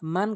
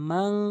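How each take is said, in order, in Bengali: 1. শেষের ন ছোট, কোনো নাকের গুন্না নেই। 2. শেষের ন নাকের গুন্নাসহ ধরে রাখা হয়। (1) "এখানে মান কখনোই বলবেন না" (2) "নাকের ভিতর নিয়ে বলবেন, গুন্না করবেন"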